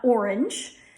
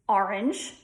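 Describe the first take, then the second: First: The first vowel sounds like 'or' before the R. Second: The first vowel sounds like 'ah' before the R. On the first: "It's not" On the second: "put an A in front of the R"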